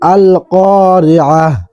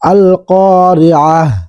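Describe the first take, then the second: The two takes are said the same way.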